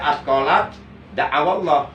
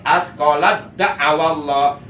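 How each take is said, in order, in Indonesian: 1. Huruf t dilafalkan terpisah sebelum d. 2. Huruf t langsung menyatu dengan d. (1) "Enggak boleh dibaca" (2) "itu tak sukunnya diidghamkan, dimasukkan ke huruf dal"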